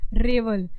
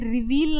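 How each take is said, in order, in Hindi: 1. यह शब्द छोटे 'e' स्वर के साथ बोला जाता है। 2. यह शब्द लंबे 'ee' स्वर के साथ बोला जाता है। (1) "याद रखना है ये हमारा क्या है" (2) "नहीं है"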